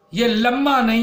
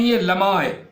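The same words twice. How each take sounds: First: لمحہ said as "lamma", doubled m with no h sound; wrong pronunciation. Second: لمحہ said as "lamha" with the h clearly sounded; correct pronunciation. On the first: (لمحہ کا غلط تلفظ، ح کے بغیر) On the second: (لمحہ کا صحیح تلفظ، ح واضح) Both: Shown as a demonstration.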